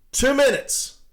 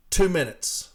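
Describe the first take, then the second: First: Two minutes punched high and loud; indignant emphasis. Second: Said in the usual way. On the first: Retold or imitated. Union carrier outraged at management, two minutes punched hard. Repeating the manager's stationary time figure.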